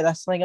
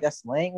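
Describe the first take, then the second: First: Said in the usual way. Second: "slang" rising into a softer question; questioning echo. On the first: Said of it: "like, they said". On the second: Retold or imitated. Speaker querying the mock interviewer's correction, "slang" as a rising question. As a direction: echo it back with "slang" lifted at the end. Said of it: "I'm like".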